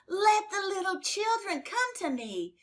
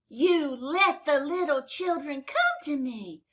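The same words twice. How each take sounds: First: Jesus repeating his command, higher and more urgent; higher, insistent repeat. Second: A firm, raised command to the disciples; Jesus correcting his disciples, firm and raised; firm rebuke. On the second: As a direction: tell them off, steady and strong. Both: Acted. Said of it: "Jesus got very angry at the disciples".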